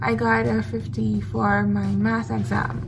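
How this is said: It sounds sad and regretful.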